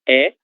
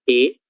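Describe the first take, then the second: First: The vowel is said with an open sound. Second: The vowel is said with a closed sound. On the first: "Som aberto" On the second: "som fechado"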